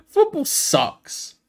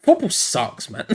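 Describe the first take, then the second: First: Slow, high laughing complaint; laughing, drawn out. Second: Said in the usual way. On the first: Real, not acted. Fan laughing in despair at her team to viewers. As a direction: let the laugh carry the whole line slowly.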